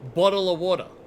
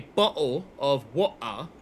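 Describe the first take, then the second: First: It is said in an Australian accent with D sounds. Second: It is said in a British accent with T sounds. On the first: "We replace the T's with D's" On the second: "British say bottle of water"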